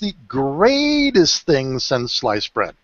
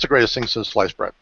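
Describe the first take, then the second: First: It is said with lively pitch and energy. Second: It is said with flat pitch and energy. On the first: The speaker calls it right. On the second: The speaker calls it wrong.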